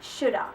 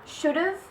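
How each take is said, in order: First: The ending is reduced to a weak vowel. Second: The word keeps its full ending sound.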